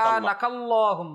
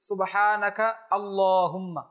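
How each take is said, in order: First: The words are run together as one. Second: The words are said separately, not joined.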